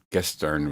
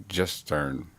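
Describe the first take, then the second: First: Gestern with a hard k-like start, Kestern; hard G German. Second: Gestern with a soft sh-like start, Shestern; soft G German. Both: Shown as a demonstration. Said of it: "I don't know if it's gestern or gestern".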